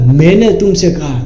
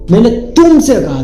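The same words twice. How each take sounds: First: The stress falls on the word मैंने. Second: The stress falls on the word तुमसे. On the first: I was the one who said it, not someone else. The speaker calls it wrong. "अगर मैंने पे मैंने तुमसे कहा" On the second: It was you, and nobody else, who was told. The speaker calls it right. "मुझे तुमसे तुमसे वहां पे वजन देना है"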